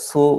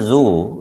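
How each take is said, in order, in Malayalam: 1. ഈ വാക്ക് ചീറുന്ന s ശബ്ദത്തിലാണ് തുടങ്ങുന്നത്. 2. ഈ വാക്ക് മൂളുന്ന z ശബ്ദത്തിലാണ് തുടങ്ങുന്നത്. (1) "ചിലരത് സു എന്ന് പറയും" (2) "This is the sound z"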